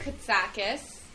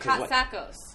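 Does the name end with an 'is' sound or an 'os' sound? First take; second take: is; os. First: The name ends with an 'is' sound. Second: The name ends with an 'os' sound. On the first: The speaker calls it wrong. "Some people say Katsakis, even though it's Os" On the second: The speaker calls it right. "even though it's Os"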